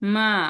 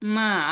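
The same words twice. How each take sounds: The two takes are said the same way.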